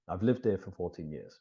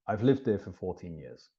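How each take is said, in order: First: The word have is contracted to 've. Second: The same.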